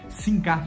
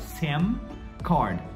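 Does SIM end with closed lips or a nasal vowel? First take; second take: nasal vowel; closed lips. First: SIM ends in a nasal vowel, lips open. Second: SIM ends with the lips pressed closed. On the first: The speaker calls it wrong. "A gente não fala aquele M nasalado igual em português" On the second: The speaker calls it right. "SIM com M, a gente encostando os lábios"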